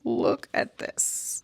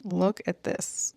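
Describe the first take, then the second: First: "Look at this." breathed as a high, slow whisper; awed whisper. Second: Said in the usual way. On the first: Shown as a demonstration. Spotting something online, showing viewers in a slow high whisper. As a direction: hush it like you've found a treasure.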